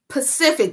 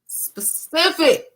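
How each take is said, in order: First: The word starts with a p sound. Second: The word starts with an s sound. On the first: The speaker calls it wrong. "not Pacific" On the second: The speaker calls it right. "specific with an S and a P"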